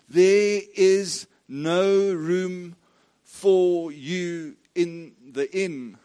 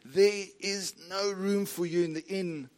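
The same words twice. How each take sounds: First: The sentence is spoken at an unhurried pace. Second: The sentence is spoken somewhat quickly.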